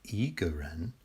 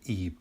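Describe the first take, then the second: First: The tone on the syllable rises. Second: The tone on the syllable falls. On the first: "the tone is a rising tone" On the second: "the tone on the I is a falling tone"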